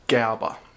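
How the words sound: The name is said with a German pronunciation.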